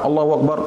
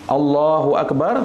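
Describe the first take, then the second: First: It is said quickly, rushed into the next. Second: It is said unhurriedly, with a pause around it. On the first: The people behind cannot keep up. The speaker calls it wrong. "jangan cepat-cepat" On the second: The people behind can follow along. The speaker calls it right. "Ada jeda supaya makmum di belakang bisa mengikuti kita"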